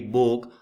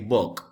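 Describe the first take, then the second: First: The final k sound is dropped. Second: The final k sound is clearly pronounced. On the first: The speaker calls it wrong. "it's wrong when we say book" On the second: The speaker calls it right. "Don't forget to pronounce the last word or the last consonant"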